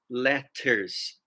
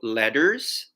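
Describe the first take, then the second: First: The middle T is crisp and clearly audible. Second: The middle T sounds soft, like a D. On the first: "if you have the British pronunciation" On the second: "it kind of sounds like a D"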